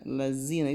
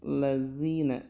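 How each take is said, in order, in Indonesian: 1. Huruf konsonan tengahnya bunyi z yang bergetar. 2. Huruf konsonan tengahnya bunyi th yang lembut dan bersuara. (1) "lazina itu terlalu z" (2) "Jadi harus lazina"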